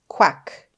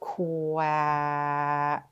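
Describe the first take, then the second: First: The word is said quickly as one unit. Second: The word is stretched out sound by sound. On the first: "let's say it fast" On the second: "let's sound out our word together"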